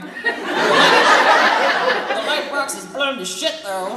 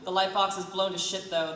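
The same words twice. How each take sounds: First: It is said in a rough, gruff voice. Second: It is said in a plain, ungruff voice.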